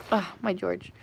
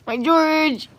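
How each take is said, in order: First: Low, soft fond sigh of a phrase; doting murmur. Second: Higher cooing pet talk; doting coo. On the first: Owner doting on cat George, soft murmur. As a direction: murmur fondly to a pet. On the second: Owner doting on cat George, high coo. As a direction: coo the pet's name adoringly. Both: Real, not acted.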